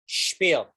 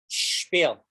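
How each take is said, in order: No difference in how they are said.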